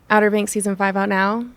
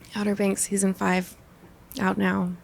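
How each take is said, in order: First: It is said in a sarcastic tone. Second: It is said in a disappointed tone.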